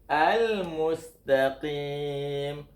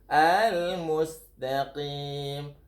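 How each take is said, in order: No difference in how they are said.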